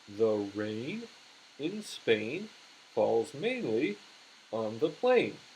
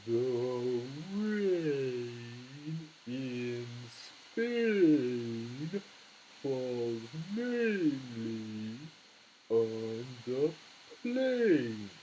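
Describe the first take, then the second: First: It is said at normal speed. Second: It is said slowly, syllable by syllable.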